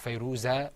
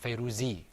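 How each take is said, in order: First: The name ends with an a vowel. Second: The name ends with an i vowel. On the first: "or Fayruza" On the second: "or Fayruzi"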